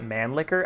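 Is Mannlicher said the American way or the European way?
American. It is said with an American pronunciation. The speaker calls it wrong. "Why do Americans pronounce it Mannlicher?"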